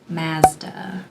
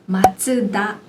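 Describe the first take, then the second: First: The name is said in two syllables. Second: The name is said in three syllables. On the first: The speaker calls it wrong. "people's mistaken pronunciation" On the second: The speaker calls it right. "The correct pronunciation being"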